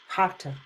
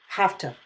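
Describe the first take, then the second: The two takes are said the same way.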